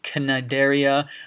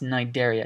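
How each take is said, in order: First: The initial C is sounded aloud. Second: The initial C is silent. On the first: The speaker calls it wrong. "this is not pronounced Cnidaria" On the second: The speaker calls it right. "This is just pronounced Cnidaria. The C is silent"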